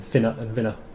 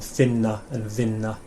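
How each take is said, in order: First: The n sound is short and quick. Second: The n sound is held for a long time. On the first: The speaker calls it wrong. "rather than" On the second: The speaker calls it right. "you kind of say the n for quite a long time"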